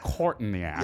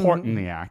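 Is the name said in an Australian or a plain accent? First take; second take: Australian; plain. First: It is said in a put-on Australian accent. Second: It is said in the speaker's usual accent.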